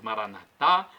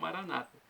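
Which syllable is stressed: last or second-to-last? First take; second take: last; second-to-last. First: The stress is on the last syllable. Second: The stress is on the second-to-last syllable. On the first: This is how Catholics say it. "Nós colocamos a tônica na última sílaba" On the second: This is how Protestants say it. "colocam a tônica na penúltima sílaba"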